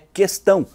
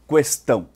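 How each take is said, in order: First: The U sound after the Q is silent. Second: The U sound after the Q is pronounced. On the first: The speaker calls it right. "sem articular a vogal U" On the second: The speaker calls it wrong. "e não"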